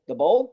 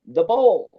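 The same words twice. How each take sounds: First: "bowl" lifted into a puzzled question; questioning echo. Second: "bowl" stated firmly with falling pitch; matter-of-fact confirmation. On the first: Engineer puzzled by "The bowl", asking back. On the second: House guy explains "The bowl", stating it firmly. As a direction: land "bowl" as a settled answer. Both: Retold or imitated.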